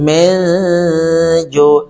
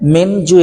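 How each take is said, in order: First: The n sound is only nasalized. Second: The n sound is pronounced clearly. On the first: "নুন স্পষ্ট না হয়ে চন্দ্রবিন্দু হয়েছে" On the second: "মেন জু এর জায়গায়"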